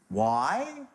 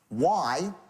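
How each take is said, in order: First: It is said as a rising question. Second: It is said as a flat statement.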